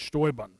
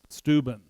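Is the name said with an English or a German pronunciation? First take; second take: German; English. First: The name is said with a German pronunciation. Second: The name is said with an English pronunciation. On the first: "but in German, it's" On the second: "In English, you might pronounce it"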